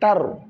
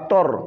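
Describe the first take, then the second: First: The vowel sounds open, like 'a'. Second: The vowel sounds rounded, like 'o'. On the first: The speaker calls it right. "mais tar" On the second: The speaker calls it wrong. "Pas tor"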